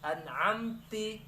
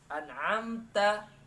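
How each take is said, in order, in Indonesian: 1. Kata ini berakhir dengan vokal 'i'. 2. Kata ini berakhir dengan vokal 'a'.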